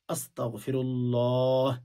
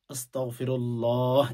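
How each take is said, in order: Both takes have the same delivery.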